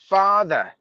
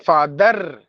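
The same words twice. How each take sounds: First: The final r is silent. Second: The final r is pronounced. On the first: The speaker calls it right. "we have to mute it" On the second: The speaker calls it wrong. "we should not say father"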